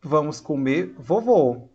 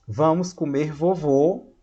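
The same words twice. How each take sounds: First: "vamos comer, vovô" with a short pause before "vovô"; comma pause. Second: "Vamos comer vovô" run together as one phrase, slowly; no break between "comer" and "vovô"; no comma pause. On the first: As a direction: break after "comer", addressing "vovô" directly. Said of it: "Tem uma vírgula". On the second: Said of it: "olha, é esse exemplo aqui". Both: Shown as a demonstration.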